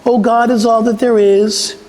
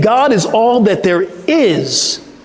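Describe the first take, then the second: First: It is said casually, without energy. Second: It is said with strong energy and conviction.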